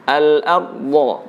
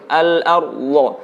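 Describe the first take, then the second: No difference in how they are said.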